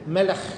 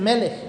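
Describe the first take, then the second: First: The final sound is a guttural rasp. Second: The final sound is plain, not guttural. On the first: The speaker calls it right. "ellos dicen Melech. Y hacen ese sonido gutural" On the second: The speaker calls it wrong. "Ellos no dicen Melech"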